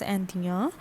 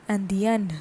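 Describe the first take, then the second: First: "Anthea" as an-dya, no n at the end; masculine plural pronunciation. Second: "Andean" as an-dyen, final n sounded; feminine plural pronunciation. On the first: Teacher explaining masculine plural, "Anthea" said like the singular, an-dya. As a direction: end "Anthea" on an open nasal ya. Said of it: "the pronunciation remains the same". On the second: Teacher explaining feminine plural, "Andean" as an-dyen with sounded n. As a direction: close "Andean" on a clear n. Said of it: "the pronunciation that is similar". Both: Shown as a demonstration.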